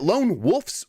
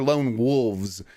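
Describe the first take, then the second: First: The word ends with an F sound. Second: The word ends with a V sound.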